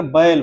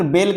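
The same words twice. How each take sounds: First: बैल drawn out as ba-el; combined vowel. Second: बैल said quickly as plain bel; no glide in बैल, just a quick E; बैल over at once, like bel; short single vowel. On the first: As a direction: glide from A to E in बैल. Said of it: "बा भी आया और इसके बाद ए". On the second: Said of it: "कहेंगे तो तुरंत". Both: Shown as a demonstration.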